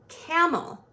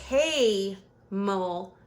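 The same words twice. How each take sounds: First: The first vowel has a short sound. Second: The first vowel has a long sound. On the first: The speaker calls it right. "the A is going to make its short sound" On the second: The speaker calls it wrong. "that doesn't sound right"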